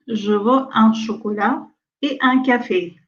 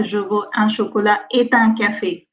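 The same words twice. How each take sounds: First: Et un café with et kept apart, e un; no liaison after et. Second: Et un said as ɛt un, with a sounded t; wrong liaison after et. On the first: Teacher modeling correct et without liaison. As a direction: keep et separate from un, no t. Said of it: "on dit". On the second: Teacher showing the mistake to avoid. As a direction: join a t from et into un, the wrong way. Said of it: "On ne dit pas". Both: Shown as a demonstration.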